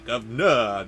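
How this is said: The word is said the clipped Cockney way. The speaker calls it right. "because it's Cockney, it's gonna come out as"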